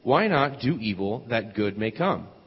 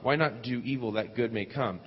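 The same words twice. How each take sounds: First: It is said loudly. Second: It is said at a normal, quieter volume.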